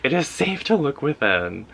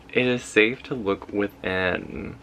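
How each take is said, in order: First: Higher, lively affirmation; emphatic affirmation. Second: Slow, deliberate reading at normal pitch; slow affirmation. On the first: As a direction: read it out with a lifted voice. Affirmation read, then repeated slower. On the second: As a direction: let each word settle slowly. Affirmation repeated slowly for effect. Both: Real, not acted.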